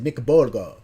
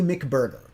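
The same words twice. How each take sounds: First: It is said in a Japanese accent. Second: It is said in a plain American accent. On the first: "They said McBurger, you know, like how, however the, the the accent is" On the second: "But they didn't say it like that"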